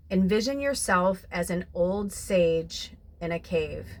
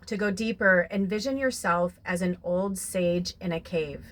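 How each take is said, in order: First: Slow it down and draw them inward; guided visualization. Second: Reading card aloud. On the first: Acted. Guiding viewers with eyes closed, slow calm visualization. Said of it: "close your eyes". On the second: Shown as a demonstration. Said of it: "So this says".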